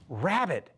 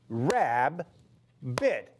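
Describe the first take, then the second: First: The word flows as one smooth unit. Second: The word breaks into two separate syllables.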